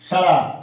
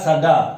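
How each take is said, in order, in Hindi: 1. बीच का व्यंजन जीभ का एक तेज़ फ़्लैप है। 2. बीच का व्यंजन एक पूरा, रुका हुआ स्टॉप है।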